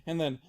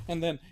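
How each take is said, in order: Both takes have the same delivery.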